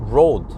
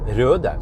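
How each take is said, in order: First: It is said with an English 'oh' vowel. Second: It is said with a rounded Nordic 'ö' vowel. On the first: "people pronounce it as road" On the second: "in Norwegian and in Danish, it's ö"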